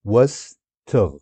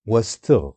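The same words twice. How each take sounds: First: واستغ drawn out slowly syllable by syllable. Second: Said in the usual way. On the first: Shown as a demonstration. Teacher showing how واستغ splits, said slowly. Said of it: "syllables drawn out slowly". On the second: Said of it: "slow syllable demo".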